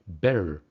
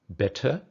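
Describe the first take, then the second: First: The middle consonant is a d-like tap. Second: The middle consonant is a clear t. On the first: "American English" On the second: "British English"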